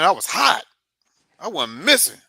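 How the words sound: It is said proudly and forcefully. The speaker is bragging about the performance. "you say that with your chest"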